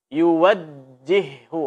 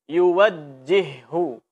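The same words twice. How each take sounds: No difference in how they are said.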